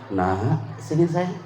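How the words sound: It is said gently and warmly.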